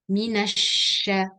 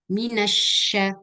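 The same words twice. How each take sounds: No difference in how they are said.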